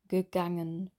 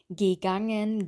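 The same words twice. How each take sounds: First: The first vowel is a relaxed schwa sound. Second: The first vowel is a tense e sound. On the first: The speaker calls it right. "die Lippen sind hier nicht gespannt, die sind ganz locker" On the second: The speaker calls it wrong. "dass die G sagen"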